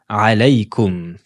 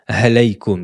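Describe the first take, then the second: First: The word begins with a tight throat sound. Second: The word begins with a breathy h sound. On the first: The speaker calls it right. "Elle se prononce au milieu de la gorge" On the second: The speaker calls it wrong. "ne dites pas ha, halaykum"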